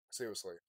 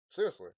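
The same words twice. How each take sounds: First: Said in the usual way. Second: Sudden shout. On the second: Real, not acted. Repeated word, second one yelled.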